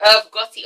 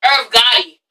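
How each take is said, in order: First: The name in a native English accent. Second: Put-on American pronunciation with a sounded R; American accent. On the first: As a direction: say it the English way, no American R. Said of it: "English accents are so shit". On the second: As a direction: switch to an American accent for the name. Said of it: "say that in an American accent". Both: Shown as a demonstration.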